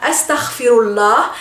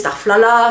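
First: The word is said in full, every syllable. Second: The word is said clipped, syllables dropped. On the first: This is the standard literary Arabic form. "en arabe littéraire" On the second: This is the deformed form used in French. "en français on dit"

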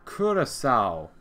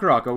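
First: The name is said like 'Curacao'. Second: The name is said like 'Caraco'. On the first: The speaker calls it right. "It's someone said Curacao" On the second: The speaker calls it wrong. "It's not Caraco, which is wrong"

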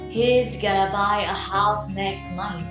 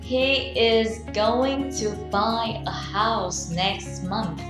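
First: The words are shortened and run together quickly. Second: Every word is said fully and separately.

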